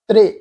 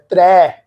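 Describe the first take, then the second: First: The word ends in a short 'i' vowel. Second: The word ends in an 'ai' vowel. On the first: The speaker calls it right. "ਤੱਤਾ ਅੱਖਰ ਮੁਕਤਾ ਰਾਰੇ ਸਿਆਰੀ ਕੀ ਬਣੇਗਾ?" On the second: The speaker calls it wrong. "ਤ੍ਰੈ ਰਾਰੇ ਤੇ ਉਲਾਰ ਦੁਲਾਵਾਂ ਦੀ ਮਾਤਰਾ ਦਾ ਉਚਾਰਨ ਹੋ ਰਿਹਾ"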